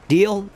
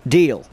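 First: "Deal?" as a rising question; asking deal. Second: "Deal." as a firm falling answer; settling deal. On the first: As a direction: ask "Deal?" with a lifted end. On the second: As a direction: close "Deal." down and final. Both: Shown as a demonstration.

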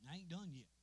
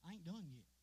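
No difference in how they are said.

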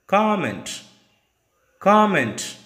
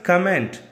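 First: "Comment" as "KOM-ent", high first syllable; correct COMMENT. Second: "comment" as "kuh-MENT"; weak first vowel, stronger end on "comment"; wrong COMMENT. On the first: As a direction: hit the open O of "Comment". ("Comment" stressed on KOM) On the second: ("comment" mispronounced as "kuh-ment") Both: Shown as a demonstration. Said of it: "It's not comment".

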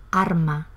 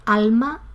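First: "arma" with an R replacing the L of alma. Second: Said in the usual way. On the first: Shown as a demonstration. Teacher showing Andalusian confusion, alma said as "arma" with R. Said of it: "a favor de R". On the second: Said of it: "en lugar de alma".

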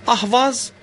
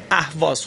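First: اهواز said as Turkish ahvaz, open a, pitched higher; Turkish pronunciation. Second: Said in the usual way. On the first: Shown as a demonstration. Teacher shows students the Turkish ahvaz pronunciation. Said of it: "به صورت ترکی بخوایم تلفظ کنیم".

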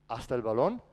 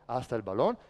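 No difference in how they are said.

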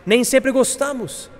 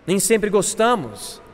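First: Raised pitch on "nem sempre gostamos"; higher-pitched admission. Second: Slow "Nem sempre gostamos", settling down; slower repeated admission. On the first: Preacher admitting dislike of useful things, higher-pitched. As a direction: lift "sempre gostamos" high, then let it fall. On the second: Preacher letting the admission sink in, slowly. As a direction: draw out "gostamos" with a falling end. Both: Real, not acted.

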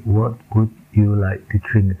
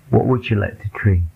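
First: "What would you like to drink" slowly, each word separate; slow, careful "would you", word by word; word-by-word reading. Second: "would you" blended into wu-joo, at normal speed; "What would you like to drink" linked, wood-joo. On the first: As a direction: keep "would" and "you" apart, no blending. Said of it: "Kalau kita baca satu-satu seperti". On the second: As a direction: run "would you" together with a J sound. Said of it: "Tapi kalau kita gabungkan would you". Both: Shown as a demonstration.

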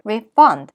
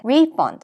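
First: ReFUND, louder second syllable as a verb; stress on second syllable. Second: REfund, first syllable stressed as a noun. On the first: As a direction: keep re- light, hit FUND in "refund". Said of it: "동사일 때는 뒤에 강세가 오죠". ("refund"의 뒤 음절 fund에 강세) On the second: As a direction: hit RE in "refund", keep -fund lighter. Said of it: "명사일 때는 앞에". ("refund"의 앞 음절 re에 강세) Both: Shown as a demonstration.

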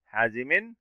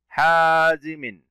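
First: Said in the usual way. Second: "حازم" very slowly as "haaaa-zimin"; tanween kasra. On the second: Shown as a demonstration. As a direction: stretch the long a in "حازم" and end on "-min". («حازم» ببطء مع مد الألف وتنوين الكسر) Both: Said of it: "الميم تنوين".

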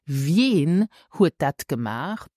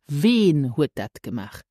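First: Slow question, "Wen" with a gliding "vyehn"; standard pronunciation. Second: "Wen" as plain "vehn", no y-glide; alternative pronunciation. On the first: Teacher gives learners the first option, "Wen" with glide. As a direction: put a y-glide after the v in "Wen". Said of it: "Either you can ask". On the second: Teacher gives learners the other option, "Wen" without glide. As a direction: keep "Wen" to a single vowel. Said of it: "Or you can say". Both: Shown as a demonstration.

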